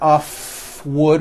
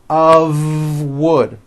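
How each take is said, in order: First: The word 'of' ends in an unvoiced F. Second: The word 'of' ends in a voiced V. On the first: The speaker calls it wrong. "It's not a f wood with an unvoiced F" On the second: The speaker calls it right. "It's all voiced and it's all connected. It's made of wood, like that"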